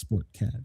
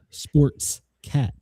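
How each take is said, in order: First: No s sound is added after sport. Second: An s sound is added after sport. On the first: The speaker calls it right. "it's sport cat" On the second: The speaker calls it wrong. "it always adds an S to sports cat"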